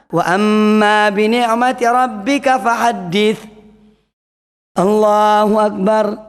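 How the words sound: It pauses briefly before saying Allahu akbar. The speaker calls it right. "Jadi yang benar adalah"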